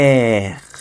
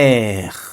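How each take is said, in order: Both takes have the same delivery.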